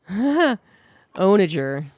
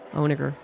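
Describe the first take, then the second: First: The g is said as a soft g. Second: The g is said as a hard g. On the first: The speaker calls it right. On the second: The speaker calls it wrong.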